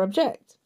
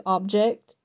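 First: "object" stressed on the second syllable, ob-JECT; accent the JECT in "object"; verb stress. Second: "object" stressed on the first syllable, OB-ject; accent the OB in "object"; noun stress. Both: Shown as a demonstration. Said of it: "simply by transposing the accent".

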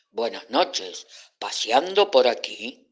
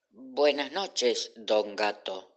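First: Cat greeting the frightened friends, lightly voiced; friendly cat. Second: Slow, timid greeting; mild trembling. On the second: Acted. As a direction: greet the cat slowly, still a little scared. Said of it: "aunque todavía temblaba un poco".

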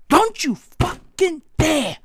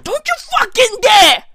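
First: Slow, measured warning, word by word; slow mock threat. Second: High, hammed-up angry warning; mock-furious shout. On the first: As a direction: space out each word in mock menace. Same threat, slowed down. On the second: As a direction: shout the threat in mock outrage. Mock threat to America.

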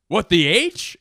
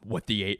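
First: Mock Norm catchphrase, louder with a rising end. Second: Said in the usual way. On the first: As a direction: say it as a goofy show tagline. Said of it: "Where he'd be like". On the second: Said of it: "then there would be, like, a boom".

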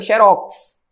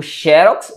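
First: "xerox" as xe-RÓX, end stressed; last-syllable stress. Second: "xerox" as XÉ-rox, front stressed; first-syllable stress. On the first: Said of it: "Se eu não coloco". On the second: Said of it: "vou ter que colocar o acento". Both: Shown as a demonstration.

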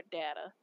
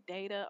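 First: Data said DAT-uh; data with first vowel as in "dad"; short-A data. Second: Data said DAY-tuh; data with first vowel as in "day"; long-A data. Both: Shown as a demonstration. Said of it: "whether y'all say data or data".

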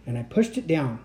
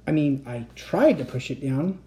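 First: Said in the usual way. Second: "tried" lifted and leaned on; weight on "tried", rest lighter; stress on tried. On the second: A narrator's reading. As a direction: correct yourself by stressing "tried". Corrects pushed to tried.

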